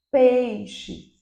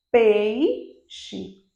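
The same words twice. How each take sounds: First: "peixe" joined up, falling from stressed PEI; stressed pei gliding down straight into xe in "peixe"; whole-word demo. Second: "peixe" split, long PEI, pause, then xe; "peixe" in two pieces, pei held long; syllable-by-syllable demo. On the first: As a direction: say "peixe" as one word, no break. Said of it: "Vocês conseguem perceber?". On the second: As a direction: stretch the first syllable of "peixe" and detach the second. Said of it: "uma queda no meu som". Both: Shown as a demonstration.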